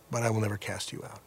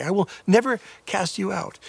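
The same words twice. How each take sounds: First: Soft, fast, hushed promise from Jesus; a soft, quick comforting vow; tender reassurance. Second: Higher, fervent preacher's proclamation; emphatic promise. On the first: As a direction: whisper the promise gently to a frightened sinner. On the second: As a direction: declare it with conviction to the doubter. Jesus quoted after lying accusation. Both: Acted.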